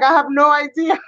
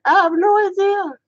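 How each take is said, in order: First: High-pitched baffled self-quote; mock-helpless higher voice; baffled protest. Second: Very high, laughing squeal; high-pitched mock-baffled squeal; squealed protest. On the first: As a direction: protest your innocence, pitched up. Acting out her baffled reply. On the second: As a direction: repeat it in a squeaky, helpless giggle. Repeats baffled reply while laughing.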